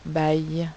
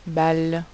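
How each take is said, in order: First: The word ends with a Y sound. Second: The word ends with an L sound. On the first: The speaker calls it wrong. "on ne dit pas baille" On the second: The speaker calls it right. "l'intrus est balle"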